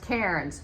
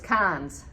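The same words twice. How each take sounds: First: The name is said as its spelling suggests. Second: The name is said unlike its spelling suggests. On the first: The speaker calls it wrong. "you think it's pronounced Cairns" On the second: The speaker calls it right. "Nope, it's Cairns"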